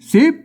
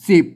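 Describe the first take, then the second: First: The word is said with a rising tone. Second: The word is said with a low tone. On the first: This is the Lanna reading. "สิบเสียงจัตวานะครับ" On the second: This is the standard Thai reading. "สิบเป็นเสียงเอกนะครับนะอ่านแบบภาษาไทยนะครับ"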